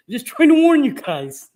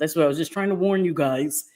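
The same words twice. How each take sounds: First: High, loud, laughing-edged insistence; insistent protest. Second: Said in the usual way. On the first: Real, not acted. Streamer denying she fished for compliments, insistent protest.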